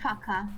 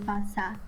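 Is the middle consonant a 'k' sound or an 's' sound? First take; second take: k sound; s sound. First: The middle consonant is a hard k sound. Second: The middle consonant is an s sound. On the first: The speaker calls it wrong. "You said faca" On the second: The speaker calls it right. "It should be faça"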